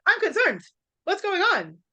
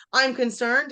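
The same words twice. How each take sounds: First: High-pitched, worked-up mock alarm; alarmed misreading. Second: Said in the usual way. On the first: Shown as a demonstration. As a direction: blurt it out as if panicking over a text. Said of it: "it might be like". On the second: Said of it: "not gonna be able to hear that".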